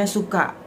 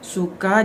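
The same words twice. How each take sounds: First: It is said with an Acehnese glottal catch. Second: It is said in standard Indonesian.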